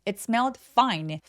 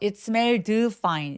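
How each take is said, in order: First: The d is only a light, unreleased final stop. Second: The d is released with a full vowel-like sound. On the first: The speaker calls it right. "디귿 받침 정도가 가볍게 있다고 생각하시면 돼요" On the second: The speaker calls it wrong. "이렇게 드까지 소리 내지 마시고요"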